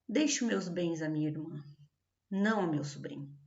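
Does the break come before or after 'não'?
before. A break before 'não', no break after.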